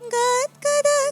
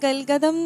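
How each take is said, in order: First: The word has a d sound before g. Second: The word has an l sound before g. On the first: The speaker calls it right. "ഗൽഗതം എന്നല്ലാതെ ഗദ്ഗത" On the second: The speaker calls it wrong. "ഗൽഗതം എന്നല്ലാതെ"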